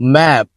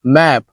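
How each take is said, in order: The two takes are said the same way.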